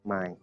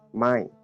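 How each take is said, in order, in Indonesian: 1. Kata ini diucapkan dengan nada rendah. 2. Kata ini diucapkan dengan nada turun. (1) "nadanya rendah" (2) "nadanya tidak rendah, tapi di situ eh, jatuh ya"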